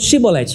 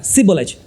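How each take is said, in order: First: It begins with a sh sound, Gileadite style. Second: It begins with an s sound, Ephraimite style.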